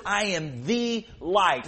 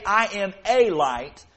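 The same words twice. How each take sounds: First: "the" stressed, slow and deliberate; slow "I am THE light", weight on "the". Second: Said in the usual way. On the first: Shown as a demonstration. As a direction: hit "the" in "I am the light". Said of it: "He says". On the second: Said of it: "He doesn't say".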